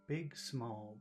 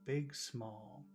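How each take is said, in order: No difference in how they are said.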